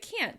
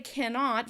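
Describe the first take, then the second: First: It is contracted into one short syllable. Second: It is said in full with two syllables. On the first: "We say can't because we're condensing the word" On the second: "We don't say cannot very often"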